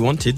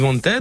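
First: The word is pronounced with English sounds. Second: The word is pronounced with French sounds. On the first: "en anglais on dit Wanted" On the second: "eux ils disent Wanted"

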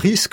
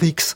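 First: The word ends with an 'sk' sound. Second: The word ends with a 'ks' sound. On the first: This is the ordinary way of saying it. "au lieu de dire « on court un risque »" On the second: This is how children say it. "on dit « on court un rix ». Mais les enfants font ça"

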